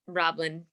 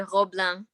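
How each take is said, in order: First: The name is pronounced with English sounds. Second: The name is pronounced with French sounds. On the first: "Roblin is the the perfect English pronunciation" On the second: "French they say Roblin"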